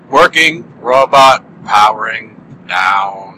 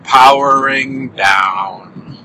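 First: Slow, low, sad robot voice; a robot shutting down, winding slowly; robot powering down. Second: Very slow, drawn-out robot shutdown; a sad robot winding down; robot powering down. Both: Pretend. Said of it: "robots sound so sad when powering down".

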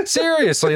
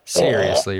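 First: Seriously said much higher, falling; exaggerated disbelief. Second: Said in the usual way. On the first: Shown as a demonstration. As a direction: pitch Seriously way up in mock disbelief. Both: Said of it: "Seriously, bro".

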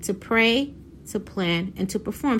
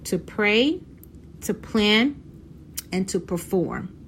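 First: The same three P's run together briskly; rattling the list off once more as a reminder; quick recap. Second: Each word set apart by long pauses; preaching the three P's to her viewers, slowly and deliberately; slow emphatic list. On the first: Recapping for her viewers, brisk and compact. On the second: To a congregation-like audience, spaced and emphatic. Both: Shown as a demonstration.

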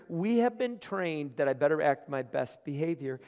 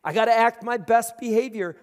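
First: Said in the usual way. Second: Louder, higher mock nervous self-warning; mock nervous churchgoer when God enters the room. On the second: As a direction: play the anxious good churchgoer. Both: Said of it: "we'd all be like".

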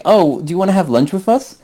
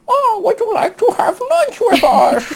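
First: Said in the usual way. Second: Put-on very high, silly English accent; hammed-up English accent. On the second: Imitating English friend's lunch invitation, absurdly high English accent. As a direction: squeal the invitation in a badly faked English accent. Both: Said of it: "let me do the accent".

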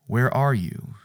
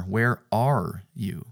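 First: "are" leaned on in Where are you; God's call with weight on "are"; stress on ARE. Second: Slow "Where ARE you?" with "are" stretched; God asking where, weight on "are"; stress on ARE. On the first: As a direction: hit the word "are". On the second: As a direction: draw out and press "are". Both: Shown as a demonstration. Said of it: "the emphasis was always on the "are".

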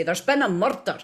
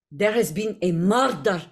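First: Scottish TV detective line; rolled R on "murder", Scottish style; Scottish accent. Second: Slavic accent, each word separate; measured Slavic delivery, hard R in "murder"; Jaheira's Slavic accent. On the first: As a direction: announce it in broad Scottish. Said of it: "So we would say". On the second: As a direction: say it in a Slavic game-character accent. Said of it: "say it in a Jaheira". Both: Shown as a demonstration.

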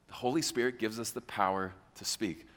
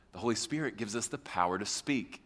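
No difference in how they are said.

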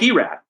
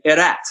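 First: Erat read the English way, as EE-rat; American pronunciation. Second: Erat said the Czech way, not as English EE-rat; Czech pronunciation. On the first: Media member quoting the mistake, Erat said American-style EE-rat. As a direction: say Erat as an American reading the spelling. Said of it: "it's nothing like Erat". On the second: Media member correcting broadcasters, Erat in Czech pronunciation. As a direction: give Erat its native Czech vowels. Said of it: "saying his name wrong for all these years". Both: Retold or imitated.

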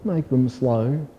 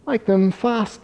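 First: Slow, stretched snail drawl. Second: High, snapped cheetah voice; snappy cheetah. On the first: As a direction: drag the words out lazily. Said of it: "drawled the snail". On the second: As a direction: snap it out high. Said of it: "snapped the cheetah". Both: A narrator's reading.

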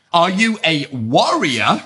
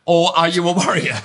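First: "warrior" said slowly, wɔɹiə˞ with a clear open o; slow "warrior", the sword word. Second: "warrior" here meaning worrier, wɑɹiə˞ with a flatter vowel; "warrior" as worrier, quicker; worrier, nail-biter. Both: Shown as a demonstration. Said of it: "sounds like the same word with my very strong British accent".

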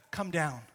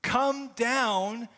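First: Said in the usual way. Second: Pleading cry. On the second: Acted. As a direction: call "Come down" up to heaven, urgent. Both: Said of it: "that desperate prayer".

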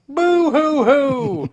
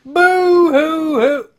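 First: High, slow mock boo-hoo sob; fake crying. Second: Higher, slower, louder mock sob; fake crying. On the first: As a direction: sob it out like a hammy cartoon. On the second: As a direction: wail the boo-hoo even hammier.

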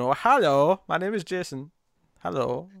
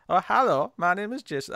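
First: Lightly voiced goofy Jason greeting; a hint of an odd, halting Jason hello; silly Jason voice. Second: Lightly voiced Wiseau-style greeting; a hint of Tommy Wiseau's odd lilt; Tommy Wiseau-ish Jason. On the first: Reading a comic character for the co-hosts, lightly odd voice. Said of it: "what is that voice that Jason has?". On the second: Asked about the voice, repeating Jason's hello lightly Wiseau-ish. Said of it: "what voice am I even doing?".

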